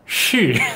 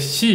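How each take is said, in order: First: It starts with a curled-tongue sh sound. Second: It starts with a plain s sound. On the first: The speaker calls it right. "혀를 말아야 돼요" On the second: The speaker calls it wrong. "근데 시 이러면 못 알아듣습니다"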